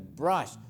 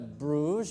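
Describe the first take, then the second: First: The vowel sounds like an open 'ah'. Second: The vowel sounds like a rounded 'oo'. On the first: The speaker calls it right. "la U tiene un sonido parecido al de la A" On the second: The speaker calls it wrong. "No se pronuncia brush"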